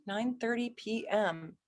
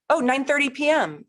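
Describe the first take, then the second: First: Much softer, under her breath; checking it over quietly to herself; murmured readback. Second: High, loud happy cry; thrilled the time finally came; delighted. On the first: Rechecking the birth time while typing it in, murmured softly. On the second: Cheering a viewer who finally sent a birth time, high and loud. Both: Real, not acted.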